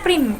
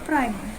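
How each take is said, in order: First: The vowel is a plain 'ee' sound. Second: The vowel is a gliding 'ai' sound. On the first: The speaker calls it right. "Dibacanya prim" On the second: The speaker calls it wrong. "bukan prime"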